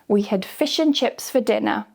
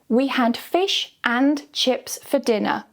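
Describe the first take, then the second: First: It is quick, with 'and' reduced to 'n'. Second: It is slow, with 'and' said in full. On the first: "the natural quick version with un" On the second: "slow version with the strong form and"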